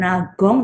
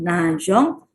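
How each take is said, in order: First: The middle consonant is a hard g. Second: The middle consonant is a soft zh sound. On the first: The speaker calls it wrong. "bukan ge bukan nagong" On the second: The speaker calls it right. "tapi najong"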